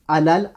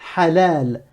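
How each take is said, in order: First: The word starts directly with the vowel. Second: The word starts with a breathy h consonant. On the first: The speaker calls it wrong. "là tu as fait que prononcer la voyelle" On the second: The speaker calls it right. "tu me prononces aussi la consonne qui va avec"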